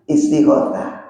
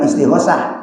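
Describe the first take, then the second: First: The consonant before the last vowel is a th. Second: The consonant before the last vowel is a plain s. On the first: The speaker calls it right. "tapi istighotsah. Ta-nya pakai ta. Titik tiga" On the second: The speaker calls it wrong. "Jadi bukan istighosah"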